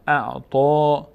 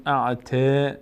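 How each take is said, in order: First: اعطا with a full, heavy ط and a long rounded "to". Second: اعطا said wrongly as "a'te", with a light t; thin the end of اعطا into a drawn-out "te". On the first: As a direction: make the end of اعطا full and drawn out. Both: Shown as a demonstration.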